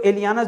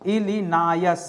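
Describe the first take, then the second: First: The name sounds like 'ili-yaa-nas'. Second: The name sounds like 'ili-naa-yas'. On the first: The speaker calls it wrong. "मुझे लग रहा है इलियानस नहीं दोस्तों" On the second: The speaker calls it right. "इलिनायस होगा"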